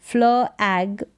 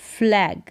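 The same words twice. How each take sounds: First: फ्ल एग in two parts; sounded out. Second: Said in the usual way. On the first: Shown as a demonstration. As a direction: separate फ्ल from एग. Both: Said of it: "फ्ल होगा".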